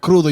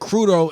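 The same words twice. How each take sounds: First: It is said with a Spanish pronunciation. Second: It is said with an English-sounding pronunciation. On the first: The speaker recognizes the word as Spanish. The speaker calls it right. "instead of crudo" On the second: The speaker did not expect the word to be Spanish. The speaker calls it wrong. "I didn't expect Spanish, so that's why I said crudo"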